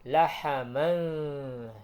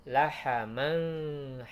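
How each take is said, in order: The two takes are said the same way.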